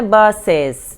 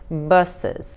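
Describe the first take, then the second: First: The second vowel is said fully and clearly. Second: The second vowel is barely said at all. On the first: The speaker calls it wrong. "não é buses, não" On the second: The speaker calls it right. "o E quase que não pronuncia"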